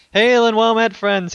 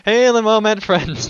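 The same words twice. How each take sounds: First: Loud, high hearty hail; booming greeting. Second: Loud, high hearty hail again; booming greeting. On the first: Host greeting the podcast listeners, loud and high. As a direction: hail them like a tavern host. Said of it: "He stole it". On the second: Host rereading the donor's letter, loud and high. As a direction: boom the old greeting out. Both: Acted.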